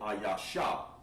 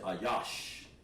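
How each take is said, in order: First: The word ends with an extra vowel sound. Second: The word ends on the sh consonant. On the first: The speaker calls it wrong. "you drop the a because you don't want to say ayasha" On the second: The speaker calls it right. "You want to say ayash"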